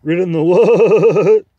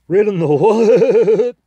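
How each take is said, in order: First: Slow, much higher and louder, horsey and angry; the horse's indignant repeat, horsier; angry horsey accent. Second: Slow, very high and loud neighing question; contemptuous neigh. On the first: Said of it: "more horsey in accent when they are angry". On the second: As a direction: neigh the words out in horse contempt. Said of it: "It came out more sort of a neigh". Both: Acted.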